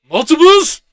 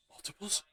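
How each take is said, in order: First: Much higher, louder shrieked "Multiples?" rising; mock-panicked double take on "Multiples?"; shocked. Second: Said in the usual way. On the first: Ruffalo shocked by clones.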